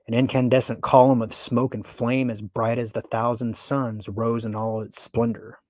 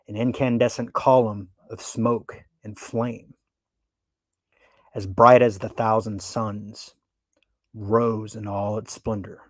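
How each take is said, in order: First: It is read quickly and evenly. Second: It is read slowly and dramatically.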